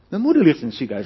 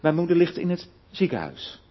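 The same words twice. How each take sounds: First: The stress falls on the word moeder. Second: The stress falls on the word ziekenhuis. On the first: It is the mother, not the father. "niet mijn vader" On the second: She is in the hospital, not another facility. "niet in een verpleeghuis of waar dan ook"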